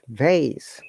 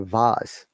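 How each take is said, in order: First: It is said in an American accent. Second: It is said in a British accent. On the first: "American will say it" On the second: "British will say"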